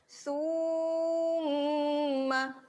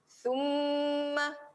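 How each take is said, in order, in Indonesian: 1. Vokal pertama dipanjangkan. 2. Huruf m digandakan dan ditahan dengan dengung hidung. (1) "jangan pada sa tu yang panjang. Jangan summa" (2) "Pada mim tu yang kena double. Pada mim tu yang dengung"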